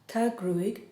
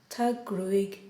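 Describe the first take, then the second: The two takes are said the same way.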